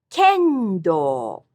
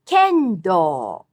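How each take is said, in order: First: "Kendo" repeated high on ken, low on do; high-low pitch. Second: "kendo" high on ken, falling on do; high-low pitch. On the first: Teacher repeating for students, high then low. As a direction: fall clearly through "Kendo". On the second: Teacher modelling pitch accent, high then low. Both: Shown as a demonstration. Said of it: "All these have high-low pitch accent".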